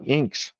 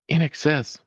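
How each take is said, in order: First: The name is said as one syllable. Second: The name is said as three syllables. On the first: The speaker calls it wrong. "I pronounced that as Inks" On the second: The speaker calls it right. "It's In Excess"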